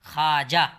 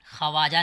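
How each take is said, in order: First: ख्वाजा as two syllables, "khaa-jaa"; correct silent-wao reading. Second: ख्वाजा in three syllables, "kha-waa-jaa"; wrong spelling pronunciation. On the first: Teacher modelling the silent letter, ख्वाजा said "khaa-jaa". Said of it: "वाव की आवाज़ silent रहेगी". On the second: Teacher warning what not to say, ख्वाजा said "kha-waa-jaa". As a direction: sound the w inside ख्वाजा. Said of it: "ख्वाजा नहीं बोलेंगे". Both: Shown as a demonstration.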